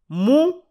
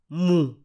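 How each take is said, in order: First: The word is said on a high tone. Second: The word is said on a mid tone. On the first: It means he or she. "mou pour il ou elle" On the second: It means I. "mou pour je"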